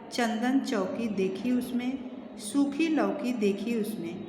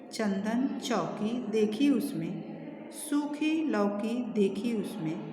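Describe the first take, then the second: The two takes are said the same way.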